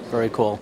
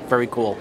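No difference in how they are said.

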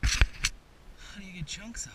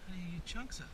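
First: Slow, loud, puzzled question. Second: Softer puzzled mutter; quiet repeat. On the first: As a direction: call it out, drawn out and baffled. Puzzling over the ice. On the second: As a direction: ask yourself again under your breath. Asks again quietly. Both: Real, not acted.

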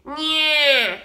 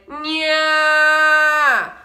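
First: Loud, pinched, nasal "nyah" placed in the nose; bright nasal nyah. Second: Louder, longer "nyah" with an open throat and dark tone; darker open nyah. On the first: Teacher demos the narrow twang first. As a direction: squeeze "nyah" through the nose. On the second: Teacher demos the darker false belt next. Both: Shown as a demonstration. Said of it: "the difference between".

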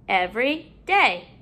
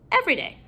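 First: "every day" in two separate parts; parts apart. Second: Said in the usual way. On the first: Shown as a demonstration. Teacher putting a new syllable in, parts apart. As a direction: pause between "every" and "day". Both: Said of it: "putting a new syllable in".

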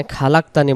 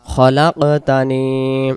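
First: খালাকতানি with an open long a after খ; wrong reading. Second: খলাকতানি with a short clipped first vowel, no long a; correct reading. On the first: Teacher showing students the mispronunciation to avoid, খালাকতানি with long a. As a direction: reads খালাকতানি with a drawn a, the way not to say it. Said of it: "খালাকতানি বলবো না". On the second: Teacher giving students the right form, খলাকতানি with short first vowel. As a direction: say খলাকতানি quickly, no drawn a after খ. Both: Shown as a demonstration.

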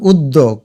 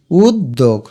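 First: Said in the usual way. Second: উদ্যোগ lower, as ud, dog; split in syllables. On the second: Shown as a demonstration. Teacher repeating the correct sound, উদ্যোগ split ud-dog. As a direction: pause on the double d in উদ্যোগ. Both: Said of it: "এটার সঠিক উচ্চারণ".

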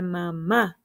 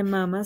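First: Mamá said slowly as ma-MÁ, last syllable stressed; stress on final syllable. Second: Mamá wrongly said MA-ma, first syllable stressed. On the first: Teacher showing children the correct word, mamá stressed on the end. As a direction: land on the long final á of "mamá". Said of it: "se dice mamá". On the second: Teacher showing children what not to say, mamá as MA-ma. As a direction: hit the first "ma" of "mamá", drop the last. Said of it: "no se dice mamá". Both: Shown as a demonstration.

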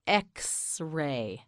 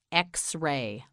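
First: X-ray slowly split into "ex" and "ray"; X-ray in two long, separate parts; syllable by syllable. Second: Said in the usual way. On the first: Shown as a demonstration. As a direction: draw out both halves of X-ray. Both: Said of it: "You say it, say X-ray".

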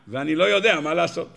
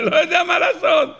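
First: Said in the usual way. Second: Much higher, laughing whine of a helpless man; mock Eliphaz's helplessness with a laugh. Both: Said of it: "אומר לו אליפז".

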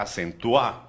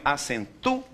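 First: "acentuar" run together with the stress on the last syllable; wrong final stress. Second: "acentua" split as acen-TU, then a separate A; hiatus on TU-A. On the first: Teacher showing what we don't say, "acentuar" stressed on the end. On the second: Teacher showing students the vowel combination, "acentua" split acen-TU / A. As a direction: break "acentua" before the final A, stressing TU. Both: Shown as a demonstration. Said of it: "A gente não fala acentuar".

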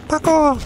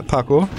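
First: Very high, drawn-out "Parkour!"; playful high-pitched catchphrase call; mock parkour cry. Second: Said in the usual way. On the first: Mock action-move cry, repeated higher.

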